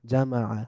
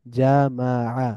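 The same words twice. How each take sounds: First: জামাআ as one joined word, ja-ma-'a; blended together. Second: জামাআ slowly as ja, ma, 'a; syllable by syllable. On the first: Teacher reading joined-up, জামাআ blended into one word. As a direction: run জামাআ together, softer and falling. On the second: Teacher breaking down the word, জামাআ syllable by syllable. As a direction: split জামাআ into three drawn-out syllables. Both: Shown as a demonstration. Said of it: "একটু মিলিয়ে মিলিয়ে পড়ব".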